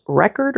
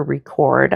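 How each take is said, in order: First: Record said REK-erd, first syllable stressed. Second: Record said ree-CORD, second syllable stressed. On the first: Painter weighing the prompt word says record as REK-erd. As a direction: hit REK in record, as the noun. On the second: Painter weighing the prompt word says record as ree-CORD. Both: Shown as a demonstration. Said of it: "I went with record".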